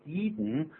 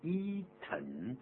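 First: The second syllable is released through the nose. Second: The second syllable has a full vowel sound. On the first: "用鼻音出来，这样的 eaten" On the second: "本来应该念成 eaten"

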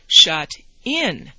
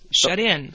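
First: The two words are said separately. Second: The two words run together as one.

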